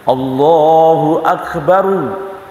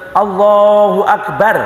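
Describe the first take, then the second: First: The final r is heavy and runs on. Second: The final r is thin and cut off. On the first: The speaker calls it right. "Roknya tebal. ... Betul" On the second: The speaker calls it wrong. "Tidak begitu. Ya, jadi tipis"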